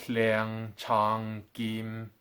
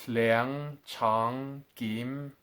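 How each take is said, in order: The two takes are said the same way.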